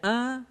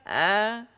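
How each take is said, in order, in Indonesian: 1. Suaranya didorong melalui hidung. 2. Suaranya keluar melalui mulut. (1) "suara tidak boleh melalui rongga hidung kita. Tidak a" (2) "tapi keluar dari rongga mulut kita"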